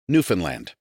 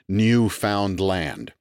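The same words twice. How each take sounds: First: It is said quickly as one run-together word. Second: It is said as three separate words. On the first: The speaker calls it right. "The key is to say it very fast" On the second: The speaker calls it wrong. "enunciated as if it were three distinct words"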